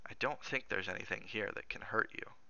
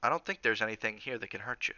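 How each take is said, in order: First: Softer, private thought; inward echo. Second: Said in the usual way. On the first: Acted. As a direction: say it quietly to yourself. Cook echoes his words in private thought.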